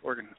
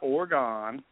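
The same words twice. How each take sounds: First: The word is said quickly, like "organ." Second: The word is said with three full syllables. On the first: The speaker calls it right. "like the things in your body" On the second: The speaker calls it wrong. "Not Oregon"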